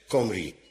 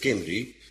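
First: The first vowel sounds like 'o'. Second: The first vowel sounds like 'i'. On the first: This is how the Welsh themselves say it. "de lui zelf in Wales spreken dit woord uit als Comri" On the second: This is how the spelling reads. "hoewel je leest Kimri"

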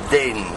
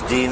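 First: The word is pronounced with a Dutch vowel. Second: The word is pronounced with an English vowel. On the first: "dus gewoon in het Nederlands" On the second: "Dat zij het hier als Deen uitspreken"

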